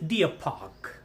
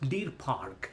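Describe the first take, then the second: First: The vowel glides from ee toward uh. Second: The vowel is a plain long ee sound. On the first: The speaker calls it right. "It's డియర్ park" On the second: The speaker calls it wrong. "It's not"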